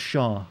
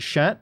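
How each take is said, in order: First: The word ends on the vowel, no T. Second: The word ends with an audible T sound. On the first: The speaker calls it right. "The T is silent, so it's just sha" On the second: The speaker calls it wrong. "It sounds like I'm saying like shat"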